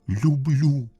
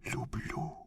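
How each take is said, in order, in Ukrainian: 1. Слово вимовляють голосніше й чутніше. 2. Слово вимовляють ледь чутно, дуже тихо. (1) "ще раз скажи, голосніше" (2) "[name] ледве чутно"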